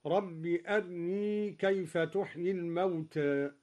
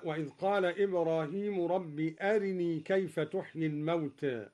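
First: In أرني barely touch the r's kasra, keep the r thin; أرني with the r vowel clipped short and light; أرني with a snatched, light r vowel. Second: Said in the usual way. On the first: Shown as a demonstration. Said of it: "قرأ الدوري باختلاس الراء مرققة هكذا". (أرني باختلاس الراء مرققة) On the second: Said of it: "باختلاس الراء مرققة".

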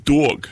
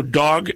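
First: New York accent on "dog", a touch slow and stretched. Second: Said in the usual way. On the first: Shown as a demonstration. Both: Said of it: "dicen dog".

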